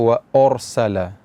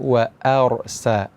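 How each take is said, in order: First: The first vowel sounds thick and rounded. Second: The first vowel sounds thin and open. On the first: The speaker calls it wrong. "jangan sampai hamzah dibaca tebal" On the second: The speaker calls it right. "hamzah dibaca tipis"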